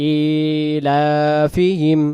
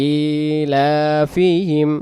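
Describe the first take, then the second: The two takes are said the same way.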